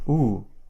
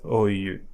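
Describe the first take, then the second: First: It is said as a single oo vowel. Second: It is said as two vowel sounds. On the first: The speaker calls it right. "but as u, like a double O in boost or pool" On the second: The speaker calls it wrong. "this one is not pronounced as oyu"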